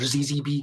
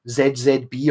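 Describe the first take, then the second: First: The letter Z is pronounced zee. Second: The letter Z is pronounced zed.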